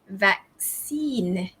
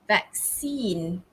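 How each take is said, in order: First: The stress is on the second syllable. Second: The same.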